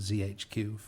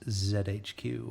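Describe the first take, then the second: First: The letter Z is said as zee. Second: The letter Z is said as zed.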